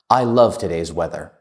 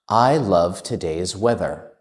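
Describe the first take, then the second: First: It is spoken at the fastest pace. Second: It is spoken at a faster pace. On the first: "And even faster" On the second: "A little bit faster"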